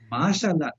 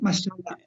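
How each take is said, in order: First: The first vowel is stretched out long. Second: The first vowel is short, not stretched. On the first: The speaker calls it right. "the stretch comes in the beginning" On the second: The speaker calls it wrong. "not mashallah"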